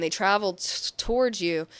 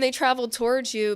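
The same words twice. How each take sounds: First: Real stumble on the t of towards; stuttering. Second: Said in the usual way. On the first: Real, not acted. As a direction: trip over the start of "towards". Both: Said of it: "I'm stuttering".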